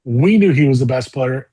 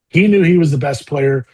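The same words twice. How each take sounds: First: We hit first and firmer; stress on we. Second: Knew pressed a little harder; stress on knew. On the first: Telling the host about Tiger, stressing We. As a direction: lean on the word We. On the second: Telling the host about Tiger, stressing knew. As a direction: lean on the word knew. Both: Real, not acted.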